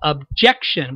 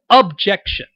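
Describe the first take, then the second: First: The stress is on the second syllable. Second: The stress is on the first syllable. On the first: It is the normal way to say the word. "most of the emphasis really on the second syllable" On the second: It fits the character's accent. "put more emphasis on that first syllable"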